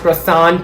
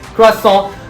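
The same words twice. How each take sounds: First: The word is said with English sounds. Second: The word is said with French sounds. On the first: The speaker calls it wrong. "not croissant" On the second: The speaker calls it right.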